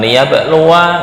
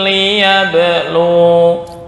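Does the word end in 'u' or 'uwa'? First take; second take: uwa; u. First: The word ends with an added 'wa' syllable. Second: The word ends on a long 'u' vowel. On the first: The speaker calls it wrong. "bukan liyabluwa, enggak" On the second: The speaker calls it right. "walakin liyablu"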